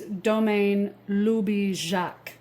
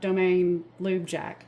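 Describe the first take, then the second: First: The name is pronounced the French way. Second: The name is pronounced in an anglicized way. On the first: The speaker calls it right. "the correct pronunciation is" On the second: The speaker calls it wrong.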